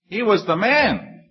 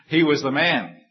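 First: High, slow and amazed; joyful retelling of the coincidence; delighted emphasis. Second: Said in the usual way. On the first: Real, not acted. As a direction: savor the surprise. Delighted repeat of the punchline.

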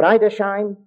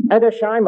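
First: Edersheim opening with "eye", as EYE-der-shime; alternative pronunciation. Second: Edersheim opening with a short e, as ED-er-shime; pronunciation variant. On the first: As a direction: say Edersheim with a long i at the start. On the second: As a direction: say Edersheim with "ed" at the start. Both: Shown as a demonstration. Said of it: "however you like to pronounce it".

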